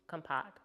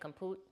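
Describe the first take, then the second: First: The second vowel sounds like 'ah'. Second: The second vowel sounds like 'oo'. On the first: The speaker calls it right. "got it" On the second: The speaker calls it wrong. "I was saying compute"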